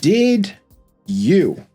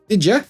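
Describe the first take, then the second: First: The two words are said clearly and separately. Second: The two words blend together into one. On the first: "when I say it like that, it's easy to understand and keep up" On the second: "did you sounds more like did ya"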